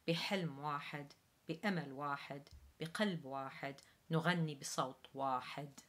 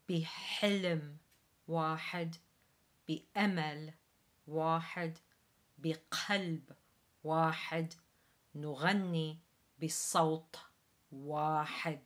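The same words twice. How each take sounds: First: It is read at normal speed. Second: It is read slowly and carefully.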